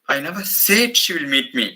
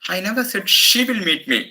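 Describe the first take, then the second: First: The word said carries the main stress. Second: The word she carries the main stress. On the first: It may have been thought but was never said. "The third sen- sentence" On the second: Someone else may come instead of her. "Maybe somebody on her behalf will meet me"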